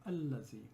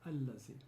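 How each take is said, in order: The two takes are said the same way.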